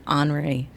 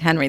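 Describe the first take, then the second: First: The name is said with French sounds. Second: The name is said with English sounds. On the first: "all of a sudden I hear Henri" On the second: "I've been pronouncing it Henry this whole time"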